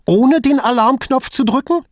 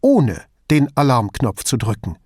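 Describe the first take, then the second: First: Very high, loud, rattled question; incredulous, anxious appeal; unsettled question. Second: "ohne den Alarmknopf zu drücken" as a falling statement; firm statement. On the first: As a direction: ask "ohne den Alarmknopf zu drücken" with voice raised, rising at the end. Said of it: "Verunsichert von ihrer strengen Miene". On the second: Investigator states the accusation back. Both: A narrator's reading.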